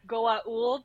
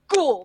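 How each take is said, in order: First: The word is not said like 'Gould'. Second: The word is said like 'Gould'. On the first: This is how the aliens themselves say it. The speaker calls it right. "characters that pronounce it correctly" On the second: This is a dismissive human mispronunciation. The speaker calls it wrong. "characters like Jack O'Neill, who's like"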